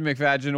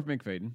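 First: "McFadden" said as mik-FAD-jən; first pronunciation. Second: "McFadden" said as mik-FAY-dən; long ay and hard d in "McFadden"; alternative pronunciation. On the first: Offering two versions of an actor's name, "McFadden" as mik-FAD-jən. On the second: Offering two versions of an actor's name, "McFadden" as mik-FAY-dən. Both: Shown as a demonstration. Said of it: "McFadden or McFadden".

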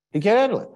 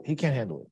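First: Handle punched louder; emphatic repeat. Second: Said in the usual way. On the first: Shown as a demonstration. Teacher repeats to the class about Moshe, emphatic. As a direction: hammer the point home.

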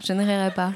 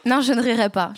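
First: Said in the usual way. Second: Holding back a laugh, failing; words breaking into a giggle. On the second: Real, not acted. Tries not to laugh. (en riant)

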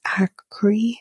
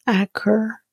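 First: Acre said as ACK-ree, ending in an ee sound; pronounced Acre. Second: Acker said as ACK-er, ending in an er sound; pronounced Acker. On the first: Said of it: "I think it's pronounced". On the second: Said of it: "That sounds better". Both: Shown as a demonstration.

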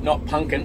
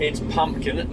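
First: "punkin" said lazily as punkin, no m-p; wrong pronunciation. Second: "pumpkin" with a clear m and p, pum-pkin; correct pronunciation. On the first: Showing his own mistake, lazy "punkin". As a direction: drop the m and p, say "punkin". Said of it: "kept saying punkin". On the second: Correcting the mispronunciation, saying "pumpkin" properly. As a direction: say "pumpkin" carefully, every sound in. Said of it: "she quite clearly fucking educated me on". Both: Shown as a demonstration.

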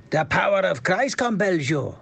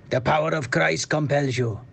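First: A Swedish try that lands Welsh; accent drifting Welsh. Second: Put-on accent drifting Welsh. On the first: Acted. Podcaster's second try at the Exorcist line, Welsh-tinged Swedish. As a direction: aim for Swedish, slide into Welsh. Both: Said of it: "So it goes Welsh".

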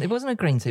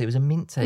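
First: Wasn't said high and firm; stress on wasn't. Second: Mint said firm and clear; stress on mint. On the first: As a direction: lean on wasn't, falling. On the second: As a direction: hit the word mint. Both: Real, not acted.

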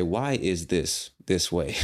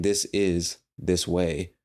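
First: "Why is this this way?" asked slowly; slow, deliberate model question. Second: "This is this way" said slowly and evenly; slow, deliberate model sentence; slow example phrase. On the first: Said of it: "you should say". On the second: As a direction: lay out "This is this way" word by word. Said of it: "Instead of saying". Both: Shown as a demonstration.

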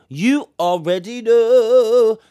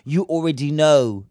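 First: Higher and louder, slow and drawn out; drawn-out knowing tease. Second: Said in the usual way. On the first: Shown as a demonstration. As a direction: stretch it like a knowing warning. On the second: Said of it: "You already know something's gonna be up".

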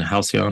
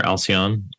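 First: "Halcyon" with an h sounded at the start; h-sound pronunciation. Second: "Alcyon" starting straight on the vowel; h-less pronunciation. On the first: Host offering one way to say the name, "Halcyon" with sounded h. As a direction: breathe an h onto the front of "Halcyon". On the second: Host offering the other way to say the name, "Alcyon" without h. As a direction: say "Alcyon" with no h at the front. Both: Shown as a demonstration. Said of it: "depending on how you pr-, pronounce it".

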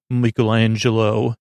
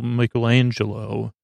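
First: "Michelangelo" said "MICK-elangelo", first syllable like "mick"; "Michelangelo" with a short "mick", not "mike"; Ninja Turtle pronunciation. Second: "Michelangelo" said "MIKE-elangelo", first syllable like "mike"; "Michelangelo" starting with a long "mike" sound; standard pronunciation. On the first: Real, not acted. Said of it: "how come you say it like that?". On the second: Shown as a demonstration. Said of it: "not a hundred percent sure that's the actual real".

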